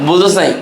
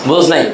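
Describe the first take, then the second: No difference in how they are said.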